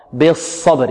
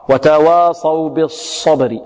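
First: بالصبر slowly, with a heavy sad and no lip rounding; correct unrounded sad. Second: وتواصوا بالصبر slowly, with rounded lips on the sad; wrong rounded sad. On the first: Teacher giving the correct reading, unrounded sad. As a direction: say بالصبر with spread lips. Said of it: "خطأ". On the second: Teacher imitating the lip-rounding error, slow. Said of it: "البعض يضم شفتيه في الصاد". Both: Shown as a demonstration.

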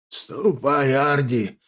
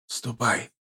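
First: Hoarse, strained grandfather; croaking old man. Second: Put-on soft, exhausted old man. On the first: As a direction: croak it out between coughs. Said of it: "прокряхтел дедушка, опять заходясь в кашля". (хриплый кряхтящий старик) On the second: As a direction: murmur it, nearly asleep. Grandfather dismisses, fading to sleep. (тихо, устало, по-стариковски) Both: A narrator's reading.

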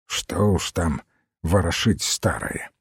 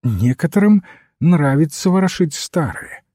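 First: Put-on low, quiet grumble of an old man; gruff grumble. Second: Higher, clearer priestly reply; polite rejoinder. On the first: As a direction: grumble it under your breath, brushing it off. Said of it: "отрывисто буркнул он". (тихое отрывистое ворчание) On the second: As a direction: answer the grumbler politely, pitched up. Priest calmly answers the grumbling old man. (вежливый ответ высоким голосом) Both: A narrator's reading.

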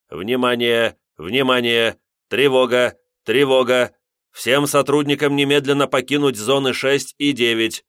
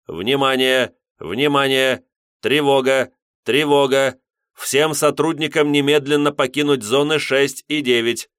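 First: Louder metallic loudspeaker announcement; booming metallic robot. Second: Higher, louder metallic speaker alarm; booming metallic robot. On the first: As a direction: announce over the alarm speaker. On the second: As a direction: blare it through the speaker. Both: A narrator's reading. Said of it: "металлический голос из динамика". (металлический голос из динамика)

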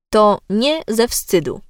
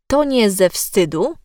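First: "to nie ze wstydu" with "nie" set apart and stressed; words separated. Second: "to nie ze wstydu" with "to nie" fused like "tonie"; words run together. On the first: Diction coach showing logical stress, "nie" separated and emphasised in "to nie ze wstydu". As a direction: put a small gap after "to", lean on "nie". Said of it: "a zaprzecza temu, że się wstydzi". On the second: Diction coach demonstrating merged words, "to nie" run together as "tonie". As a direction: join "to nie" into one word, no pause. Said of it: "Łączenie wyrazów". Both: Shown as a demonstration.

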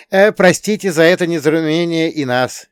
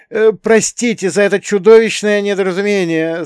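First: High, loud shout back; raised-voice return apology; yelled apology. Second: High, loud desperate blurt; despairing high-pitched cry; desperate apology. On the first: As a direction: yell it back over the shoulder. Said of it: "проорал я в ответ". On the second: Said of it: "с отчаянием в голосе выпалил". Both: A narrator's reading.

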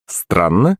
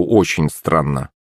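First: "Странно" with rising question tone; puzzled rise on "Странно"; questioning echo. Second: Said in the usual way. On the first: A narrator's reading. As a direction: query "Странно" back, pitch lifting at the end. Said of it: "переспросил я".

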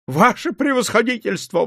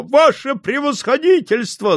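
First: A higher, first wailing cry. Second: Much higher, fuller wail; louder wailing. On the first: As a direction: wail the title, still holding back a little. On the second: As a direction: cry out the title again at full pitch. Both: A narrator's reading. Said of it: "завопила она".

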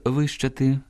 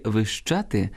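First: "вищати" stressed on "ви"; first-syllable stress. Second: "вищати" stressed on "ща"; second-syllable stress. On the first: Teacher meaning growing taller, "вищати" stressed on "ви". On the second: Teacher meaning squealing, "вищати" stressed on "ща". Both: Shown as a demonstration. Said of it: "наголос впливає на значення слова".

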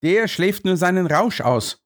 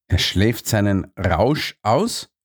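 First: Said in the usual way. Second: Slow, disbelieving question rising on "aus"; incredulous. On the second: Acted. Watson repeats the guard's words, incredulous. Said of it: "fragte ich ungläubig".

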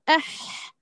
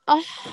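First: أح with a thin, light ha, as a student wrongly says it. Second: أح with the ha placed correctly, as the teacher repeats it; corrected أح. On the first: Teacher showing the student's thin أح. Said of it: "تأتي بها مرققة وتقول". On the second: Teacher repeating the student's أح the right way. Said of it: "ونعيد لها الخطأ ونقول". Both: Shown as a demonstration.

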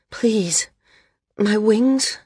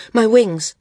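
First: Breathy whisper, rising into a higher question; whispered plea. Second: Higher, louder cry of fear; sudden alarm. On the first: Whispered plea after exertion. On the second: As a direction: panic breaking through. Maris suddenly fears the worst. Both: A narrator's reading.

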